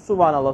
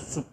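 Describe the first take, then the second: First: It is said slowly and in full. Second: It is said quickly and clipped short.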